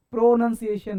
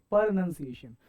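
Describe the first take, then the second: First: प्रोनंसिएशन with a strong, full "pro" at the front; mispronunciation. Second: प्रोनंसिएशन with a reduced "per" opening, no round "o"; correct pronunciation. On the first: Teacher showing the wrong form, प्रोनंसिएशन starting on full "pro". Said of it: "नहीं". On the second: Teacher giving the right form, प्रोनंसिएशन opened as "per". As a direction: say प्रोनंसिएशन starting on a quick schwa. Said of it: "प्रोनंसिएशन नहीं". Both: Shown as a demonstration.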